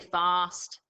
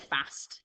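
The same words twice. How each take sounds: First: The vowel is a long ar sound. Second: The vowel is a short flat a. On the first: It is how the speaker says it. "But I say fast, so I've got to remember that when I say R" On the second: It is how some people say it depending on where they are from. "some of you might say fast, last, depending where you're from"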